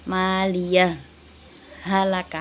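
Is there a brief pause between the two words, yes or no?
yes. A brief breathless pause separates the two words. "yang bagus itu dibaca idhar, berarti disaktakan"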